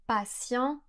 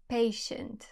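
First: Patient said in French, pa-syan; French pronunciation. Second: Patient said in English, PAY-shunt; English pronunciation. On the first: Teacher showing the French Patient before the English. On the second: Teacher showing the English patient after the French. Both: Shown as a demonstration. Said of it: "Par exemple".

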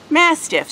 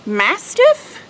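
First: Mastiff, falling, confirmed; settled falling confirmation; settled answer. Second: Mastiff? rising high like a question; unsure rising guess. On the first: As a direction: answer yourself with "Mastiff", dropping at the end. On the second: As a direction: ask "Mastiff?" unsure, voice going up at the end. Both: Real, not acted.

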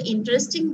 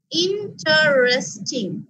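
First: Said in the usual way. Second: "interesting" slowly as in-ter-res-ting; four separate syllables. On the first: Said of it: "interesting বলতে গেলে". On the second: Shown as a demonstration. Teacher shows the next word divided, "interesting" in four slow syllables. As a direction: sound out four beats in "interesting". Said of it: "চারটা ভাগ করে ফেলেছি".

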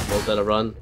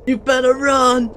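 First: Said in the usual way. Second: High, loud, slow yell; shouted threat. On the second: Acted. Threat while shooting teammate.

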